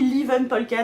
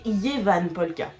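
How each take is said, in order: First: The name begins with an L and 'li' sound. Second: The name begins with a Y and 'ye' sound. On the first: The speaker calls it wrong. "ni Livan Polka d'ailleurs" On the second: The speaker calls it right. "c'est Yevan Polka"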